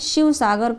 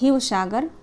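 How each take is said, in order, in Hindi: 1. नाम 'sh' ध्वनि से शुरू होता है। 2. नाम 'h' ध्वनि से शुरू होता है। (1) "तालव्य श" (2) "असमिया में सब ह हो जाते हैं"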